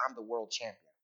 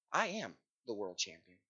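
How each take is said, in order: First: Said in the usual way. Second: Soft, deliberate "I am", each word weighted; stress on AM. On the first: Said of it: "very easy to say". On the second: Shown as a demonstration. Preacher showing an easy boast, stress on "am".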